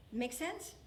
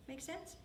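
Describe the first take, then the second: First: Said in the usual way. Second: Hushed rising check-in; soft repeated question. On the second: Shown as a demonstration. Pastor checking the congregation follows, hushed. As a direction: ask it again gently and quietly.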